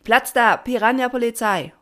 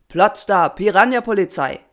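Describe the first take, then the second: First: High, loud shouted response; answering chorus. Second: Loud commanding rallying cry; calling out. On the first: Assembled swarm answers the patron, high shouted reply. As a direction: echo it back as a crowd. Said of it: "und alle antworteten". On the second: Patron opens the assembly, loud commanding call. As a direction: call the motto out to everyone. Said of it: "rief er". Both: A narrator's reading.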